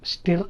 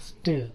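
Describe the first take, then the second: First: స్టిర్ with an audible r; short i and clear r in స్టిర్; r sounded. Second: స్టిర్ as "stuh", r silent; r-less pronunciation. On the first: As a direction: say స్టిర్ as "stir-ra". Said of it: "అనకూడదు". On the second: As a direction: central vowel in స్టిర్. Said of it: "స్టిర్ అనకూడదు". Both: Shown as a demonstration.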